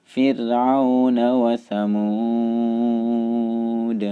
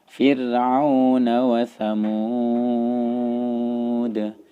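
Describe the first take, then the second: The two takes are said the same way.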